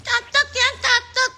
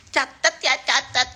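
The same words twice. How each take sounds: First: Very high, squeaky mock voice; small, shrill mocking voice. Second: Raised-pitch mock of her voice; mocking imitation. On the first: Host imitates a rival giving orders, shrill squeaky mockery. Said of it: "kecil, cempreng gitu". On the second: Host mimics a rival's voice giving orders, mocking imitation. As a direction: mimic her small voice lightly. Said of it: "Suaranya gitu".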